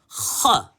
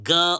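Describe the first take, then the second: First: It begins with a throaty, rasping kh sound. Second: It begins with a plain hard g sound. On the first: The speaker calls it right. "How do we pronounce it now? Kha" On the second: The speaker calls it wrong. "This is not ga or g"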